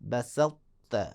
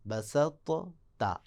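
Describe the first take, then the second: First: A heavy t merges straight into a light t. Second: The two t-sounds are pronounced separately. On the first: "मोटा पढ़ना है फिर फ़ौरन ता को बारीक पढ़ देना है" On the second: "असल में ये लफ्ज़ था"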